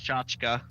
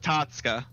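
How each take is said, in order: First: The word starts with a ch sound. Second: The word starts with a t sound. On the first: "Merriam-Webster though says it's pronounced chachka" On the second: "you actually drop the C H's and not the T's"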